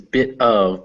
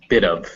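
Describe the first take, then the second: First: The t is said clearly between separate words. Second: The t is flapped like a quick d. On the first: "This is" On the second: "together it becomes"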